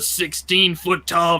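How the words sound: It is said in a booming announcer voice.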